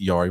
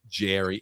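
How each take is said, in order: First: The name begins with a Y sound. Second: The name begins with a J sound. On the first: The speaker calls it wrong. "I always pronounce it Yari" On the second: The speaker calls it right. "So that's what Mike M say. Apparently, T J, it's Jerry"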